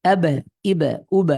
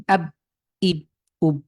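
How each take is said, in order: First: আব, ইব, উব with the b released into a short echo; doubled b with a tiny vowel after it in আব, ইব, উব; echoing bounce. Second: আব, ইব, উব with the final b stopped dead; unechoed final b in আব, ইব, উব; no bounce. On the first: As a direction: push the b and let it rebound in আব, ইব, উব. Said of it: "একটু প্রতিধ্বনি করে". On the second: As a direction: close the lips on the b without releasing in আব, ইব, উব. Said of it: "এভাবে পড়লে কিন্তু". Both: Shown as a demonstration.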